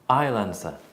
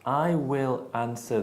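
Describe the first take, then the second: First: 'I will' is contracted, with a reduced schwa vowel. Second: Both words of 'I will' are said in full. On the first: "that changes it to a schwa" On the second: "instead of I will answer these letters"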